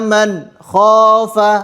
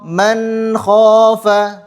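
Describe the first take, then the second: First: There is a break between man and kha. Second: Man and kha run together without a break. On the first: The speaker calls it wrong. "tidak boleh ada berhenti di tengah-tengahnya" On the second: The speaker calls it right. "Yang benar"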